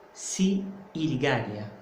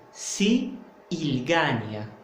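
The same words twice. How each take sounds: No difference in how they are said.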